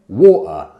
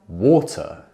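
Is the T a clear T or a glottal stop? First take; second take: glottal stop; clear T. First: The T is stopped in the throat. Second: The T is clearly released with a puff. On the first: "we might say" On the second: "instead of"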